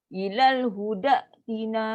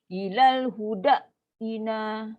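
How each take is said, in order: No difference in how they are said.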